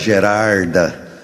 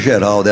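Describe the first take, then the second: First: The middle consonant is pronounced as an R. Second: The middle consonant is pronounced as an L. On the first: This is how the hometown people said the name. The speaker calls it wrong. "era Gerarda" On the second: This is the standard form of the name. The speaker calls it right. "Geralda não era Geralda"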